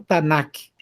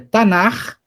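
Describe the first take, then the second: First: The word ends in a hard stopped sound. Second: The word ends in a raspy throat sound. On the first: The speaker calls it wrong. "e não Tanak" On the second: The speaker calls it right. "ao invés de aparecer o som de Kaf, aparece o som de Raf"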